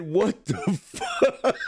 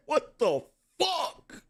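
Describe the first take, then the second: First: Drawn-out mock "What the fuck?", fuck falling; slow, stretched imitation of her "What the fuck?"; imitating her. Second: Higher mock "What the fuck?", fuck rising; pitched-up imitation of her "What the fuck?" with rising fuck; imitating her. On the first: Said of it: "the way she said". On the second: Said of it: "The way she said".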